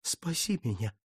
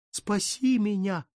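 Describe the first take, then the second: First: Low, soft, broken plea; plaintive moan. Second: Anguished wail. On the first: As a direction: moan it quietly to the statue. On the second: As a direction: cry it out in despair. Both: Acted. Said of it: "жалобно простонал он".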